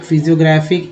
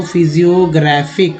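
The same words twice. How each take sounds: First: Said in the usual way. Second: Physiographic drawn out slowly; slow syllabified. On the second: Shown as a demonstration. (physiographic को धीरे-धीरे खींचकर बोलना) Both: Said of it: "uh, physio".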